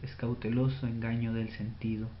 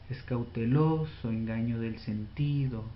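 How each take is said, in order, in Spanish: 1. La línea se lee con naturalidad, sin acentos exagerados. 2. La línea se lee con acentos muy exagerados. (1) "de una manera clara"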